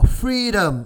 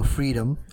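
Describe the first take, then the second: First: It is said in a louder, put-on Scottish accent. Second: It is said in an ordinary accent.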